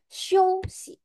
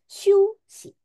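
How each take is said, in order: First: The first vowel is an 'oh'-like gliding sound. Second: The first vowel is a plain 'oo' sound. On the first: The speaker calls it right. "dia harusnya show si" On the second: The speaker calls it wrong. "mungkin kalian akan bacanya shu si. Salah"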